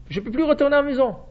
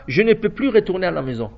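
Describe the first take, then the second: First: Higher, fast anguished cry of the brother; a brother who cannot go home; Reuven lamenting. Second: Said in the usual way. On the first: Retold or imitated. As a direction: voice Reuven's despair, rushing the words.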